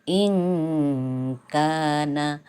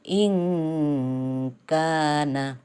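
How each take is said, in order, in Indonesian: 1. Bunyi n dibuat samar dan sengau menjadi k. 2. Bunyi n dibuat samar dan sengau menjadi k.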